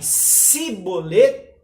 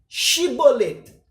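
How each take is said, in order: First: The word begins with an 's' sound. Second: The word begins with a 'sh' sound. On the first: The person saying it is an Ephraimite. "Se eles falarem Sibolet, eles são efraimitas" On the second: The person saying it is not an Ephraimite. "pronunciem a palavra shibolet"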